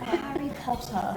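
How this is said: The name is said in an exaggerated, overdone way. "Over-pronounce it"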